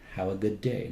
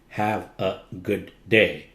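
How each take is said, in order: First: Good and day are joined smoothly together. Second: Good and day are said apart, not joined. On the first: The speaker calls it right. "you just glide them together" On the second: The speaker calls it wrong. "That's not gliding"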